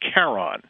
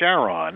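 First: It begins with a sound unlike Charlene. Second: It begins with the same sound as Charlene. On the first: It follows the original Greek. "proper Greek pronunciation" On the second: It honours a wife named Charlene. "as he pronounced it"

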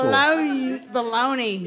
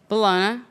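First: It is said with a Southern American pronunciation. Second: It is said with a refined, French-like pronunciation. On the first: The speaker sounds down-home and unpretentious. "Pronounce it like you didn't go to cooking school" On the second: The speaker sounds classy and cultured. "I was in France for a second"

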